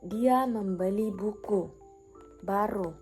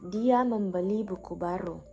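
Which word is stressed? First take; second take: buku; baru. First: The stress falls on the word buku. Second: The stress falls on the word baru. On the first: A book was bought, not stationery or something else. "Maksudnya yang dibeli adalah buku" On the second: The book is new, not old. "Penekanan pada kata baru"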